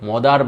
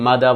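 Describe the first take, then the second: First: It is said 'modar' with an o vowel. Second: It is said 'mada' with no final r. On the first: The speaker calls it wrong. "That becomes ইনকম্প্রিহেন্সেবল" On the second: The speaker calls it right. "মাদা বলতে পারেন"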